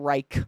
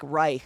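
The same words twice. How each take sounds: First: The final consonant is hard and clipped. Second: The final consonant is soft and breathy. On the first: The speaker calls it wrong. "not Reich" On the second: The speaker calls it right. "softer, way softer"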